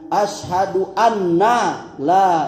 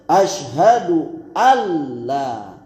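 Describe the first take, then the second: First: The n is doubled before the l. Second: The n merges fully into the following l. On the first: The speaker calls it wrong. "bukan asyhadu anna la ilaha" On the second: The speaker calls it right. "Yang benar dia matikan nun itu dan masukkan dia ke dalam lam"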